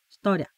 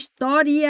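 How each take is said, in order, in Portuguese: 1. O som do i quase não se ouve. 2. O som do i se ouve claramente. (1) "Como se não houvesse i" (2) "Você frisa o i"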